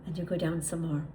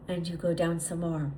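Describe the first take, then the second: No difference in how they are said.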